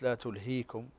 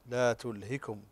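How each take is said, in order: First: The vowel after the h is long. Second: The vowel after the h is short. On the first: The speaker calls it wrong. "ليست لا تلهيكم" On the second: The speaker calls it right.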